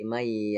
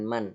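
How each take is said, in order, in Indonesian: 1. Bunyi n hilang, menyatu dengan y. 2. Bunyi n diucapkan dengan jelas. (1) "sehingga tidak kelihatan nunnya" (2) "bukan man"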